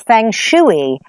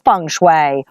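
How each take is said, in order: First: It is pronounced the way Americans say it. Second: It is pronounced the original, non-American way.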